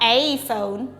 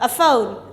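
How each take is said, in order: First: The article is a full 'ay' sound. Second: The article is a short reduced 'uh' sound. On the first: The speaker calls it wrong. "Not a phone" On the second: The speaker calls it right. "when you come to talk, you normally we don't say a book"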